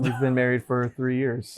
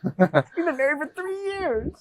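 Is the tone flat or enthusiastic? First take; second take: flat; enthusiastic. First: It is said in a flat, unenthusiastic tone. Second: It is said in an enthusiastic tone.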